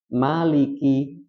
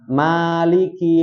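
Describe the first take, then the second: First: The first vowel is said short. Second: The first vowel is said long.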